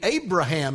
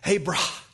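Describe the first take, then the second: First: The middle syllable is said plainly, without extra breath. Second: The middle 'ha' is breathed out with strong breath. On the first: "as we say it" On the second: "we wouldn't pronounce it this way, but really it's from Abram to Abraham"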